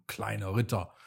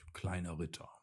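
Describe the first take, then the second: First: A touch of scorn, spoken down to him; the sun guardian mocks the little knight, lightly scornful; mocking. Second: Quieter, yielding tone; soften, giving in to him; conceding gently. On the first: Sneering little title, understated. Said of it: "spottete er". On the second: Acted. The sun guardian admits Leon is right, gently quiet. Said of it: "Du hast recht, kleiner Ritter".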